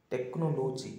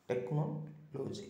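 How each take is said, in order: First: technology with the beat on the third syllable; technology mis-stressed on its third syllable, as a warning example; wrong stress. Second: Slow, softer technology with the beat on the second syllable; technology said slowly and gently with second-syllable stress, as a model; correct stress. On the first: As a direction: push ଟେକ୍ନୋଲୋଜି's third syllable, not the second. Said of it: "ଷ୍ଟ୍ରେସିଂ on the third ସିଲାବିକ୍ instead of second". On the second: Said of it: "instead of second". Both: Shown as a demonstration.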